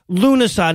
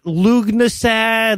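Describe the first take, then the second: First: The opening 'Lu' runs straight into an n sound. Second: The opening 'Lu' is followed by a g sound. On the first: The speaker calls it right. "it's pronounced Lunasa" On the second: The speaker calls it wrong. "not Lugnasad"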